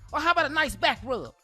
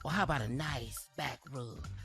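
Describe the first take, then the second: First: It is read in a plain, ordinary voice. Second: It is read in a sultry, seductive voice.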